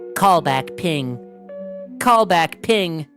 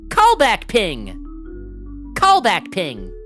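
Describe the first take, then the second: First: It is said in Sin's darker character voice. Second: It is said in a light, cheerful tone.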